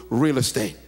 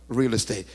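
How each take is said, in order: The two takes are said the same way.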